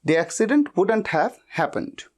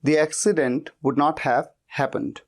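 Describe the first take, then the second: First: Would and not are contracted into one word. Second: Would and not are said as two full words. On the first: "बोलते वक्त हम generally wouldn't कह देते हैं" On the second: "would not इतना लंबा नहीं कहते"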